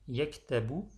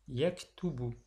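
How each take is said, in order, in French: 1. La voyelle après le t est 'a'. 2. La voyelle après le t est 'u'. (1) "on ne dira donc pas" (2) "mais plutôt on dira"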